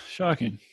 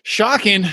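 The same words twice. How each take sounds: First: Soft, dropped aside; muted mock shock. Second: Higher, exclaimed deadpan jab; mock shock. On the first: Co-host echoing own reaction to the story, softly mock shocked. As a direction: let the fake amazement fall away quietly. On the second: Co-host reacting to the long story, mock shocked exclamation. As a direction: feign amazement with a raised pitch.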